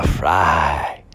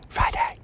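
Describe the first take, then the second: First: Big, drawn-out radio-style holler on Friday; drawn-out greeting. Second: Hushed, voiceless whisper; softly whispered aside to listeners. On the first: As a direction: draw out the first syllable of Friday. Exaggerated greeting, then whispered repeat. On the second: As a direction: whisper it close to the ear. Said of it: "I'm whispering in your ear". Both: Pretend.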